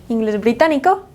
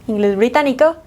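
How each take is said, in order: No difference in how they are said.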